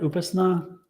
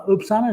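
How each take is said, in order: First: "Upasna" said OO-puhs-nah, with a vowel after p; corrected name pronunciation. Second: "Upsana" said OOP-sah-nuh, with no vowel between p and s; tentative name pronunciation. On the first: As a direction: say "Upasna" with s running straight into n. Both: Shown as a demonstration. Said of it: "is that how you say it".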